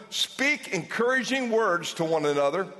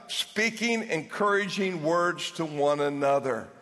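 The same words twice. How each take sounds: First: Said in the usual way. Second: Slow, each word weighed; slow emphatic answer. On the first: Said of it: "The Apostle Paul says". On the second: Shown as a demonstration. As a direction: spell it out for them slowly. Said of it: "Keep on doing what?".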